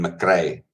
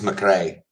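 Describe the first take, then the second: First: The R is hard and strongly pronounced. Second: The R is soft, not strongly pronounced. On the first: "rather than" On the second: "if there wouldn't be such a hard R on that. It'd be just McRae"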